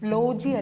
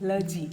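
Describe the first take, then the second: First: The first vowel is a full 'o' sound. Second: The first vowel is a weak 'uh' sound. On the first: The speaker calls it wrong. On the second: The speaker calls it right.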